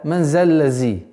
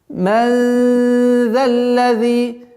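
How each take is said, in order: First: The consonant after 'man' is a 'z' sound. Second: The consonant after 'man' is a soft 'th' sound. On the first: The speaker calls it wrong. "когда звук заль переходит в звук зай... Это большая ошибка" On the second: The speaker calls it right. "заль звук, мягкий звук"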